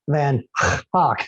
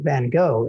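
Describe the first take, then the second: First: The name is said the Dutch way. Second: The name is said the English way.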